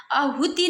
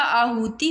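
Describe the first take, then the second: First: "आहुति" said quickly with short first vowels; rejected pronunciation. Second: "आहुति" slow, long opening aa; corrected pronunciation. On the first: Teacher showing students the error, "आहुति" kept short. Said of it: "आहुति नहीं होता". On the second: Teacher giving the correction, "आहुति" slow and drawn out. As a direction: draw out "आहुति" from the first aa. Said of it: "आहुति होता है". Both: Shown as a demonstration.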